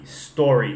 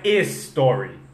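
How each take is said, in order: First: The word starts directly with the s sound. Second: An extra vowel sound comes before the s. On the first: The speaker calls it right. "É só story" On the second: The speaker calls it wrong. "não é story"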